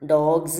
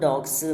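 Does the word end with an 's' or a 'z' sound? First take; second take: z; s. First: The ending is said with a 'z' sound. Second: The ending is said with an 's' sound. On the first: This is how it is really said. The speaker calls it right. "ശരിക്കും എന്താണ് ഡോഗ്സ് എന്നാണ് പറയുക" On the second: This is how local speakers usually say it. The speaker calls it wrong. "പക്ഷെ നമ്മൾ ഡോഗ്സ് എന്നാണ് പറയുക. നമുക്ക് സെഡ് ഇല്ല മലയാളത്തിൽ"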